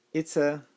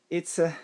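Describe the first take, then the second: No difference in how they are said.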